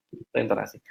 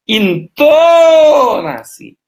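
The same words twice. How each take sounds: First: "Itu intonasi" very soft and low; low, hushed tag on "Itu intonasi"; understated intonation. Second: "Intonasi" stretched very long, high and swooping down; loud, high, slow showpiece on "Intonasi"; exaggerated intonation. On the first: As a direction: drop "Itu intonasi" to a quiet aside. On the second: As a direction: call out "Intonasi" with a huge drawn-out middle. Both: Shown as a demonstration. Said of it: "intonasi adalah cara Anda berbicara".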